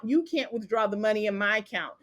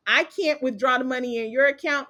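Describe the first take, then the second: First: You hit first and hardest; stress on You. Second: Your pushed out as the key word; stress on your. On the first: Flipping the point to students, stressing You. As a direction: punch You at the start. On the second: Explaining who owns the money, stressing your. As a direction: lean on your in account. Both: Shown as a demonstration.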